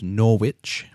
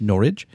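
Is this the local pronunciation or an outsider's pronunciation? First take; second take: outsider; local. First: It is said the way an outsider would. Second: It is said the way locals say it. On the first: The speaker calls it wrong. "which you would probably pronounce as Norwich" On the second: The speaker calls it right. "but it's actually pronounced Norwich"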